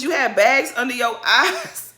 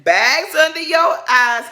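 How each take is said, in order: First: Mildly mocking retelling. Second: Slow, high shouted insult; mock shout. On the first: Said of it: "All she said to you was". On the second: Quoting a housewife's shouted jab at a rival, slow loud yell. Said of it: "And then [name] said".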